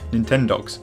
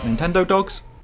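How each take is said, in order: First: It is said as one blended word. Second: It is said as two separate words. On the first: The speaker calls it right. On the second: The speaker calls it wrong.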